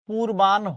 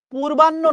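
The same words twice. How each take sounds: First: "পূর্বাহ্ন" said as pur-ban-ho; correct pronunciation. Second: "পূর্বাহ্ন" pitched high as pur-ban-no; common mispronunciation. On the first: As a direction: draw out the final ho of "পূর্বাহ্ন". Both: Shown as a demonstration. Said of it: "শব্দটা হচ্ছে".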